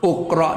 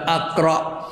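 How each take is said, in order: First: The word begins with a u vowel. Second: The word begins with an a vowel. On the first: "uqra dak" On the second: "tidak aqra"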